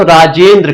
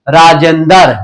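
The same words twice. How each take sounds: First: राजेंद्र with the final cluster द्र kept tight, no vowel between द and र; राजेंद्र said the pure way, द्र joined; standard Hindi Rajendra. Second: राजेंदर with an extra अ slipped in, द and र split apart; राजेंदर said the village way, दर not द्र; village pronunciation. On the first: Teacher shows students the pure Hindi form, crisp and careful. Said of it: "शुद्ध हिंदी में बोलेंगे तो राजेंद्र कहेंगे". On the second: Teacher shows students the rural form, vowel inserted. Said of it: "गांव वगैरह की भाषा में राजेंद्र को क्या बोलते हैं". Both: Shown as a demonstration.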